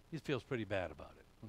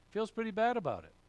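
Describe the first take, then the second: First: Said in the usual way. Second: Higher, faster echo of the line; a preacher's pointed repeat; emphatic repeat. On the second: Shown as a demonstration. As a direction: toss it back up high and quick. Preacher repeats the phrase for effect.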